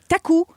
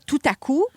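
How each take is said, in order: First: The words are squeezed into two quick syllables. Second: All three words are said fully and separately. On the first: "je fais beaucoup de contractions de mots" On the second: "au lieu de dire tout à coup"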